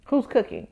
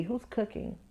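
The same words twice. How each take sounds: First: "Who's cooking?" at normal level, stress on "Who's", falling tune; falling rhetorical question; pointed punchline. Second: "who's cooking?" asked much softer, rising at the end; hushed rising question. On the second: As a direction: murmur "who's cooking?" as a quiet real question. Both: Shown as a demonstration.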